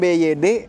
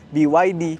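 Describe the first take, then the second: First: The letters are named the Indonesian way. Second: The letters are named the English way. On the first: The speaker calls it wrong. "itu pengejaan bahasa Indonesia" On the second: The speaker calls it right. "cara baca yang baik dan benar"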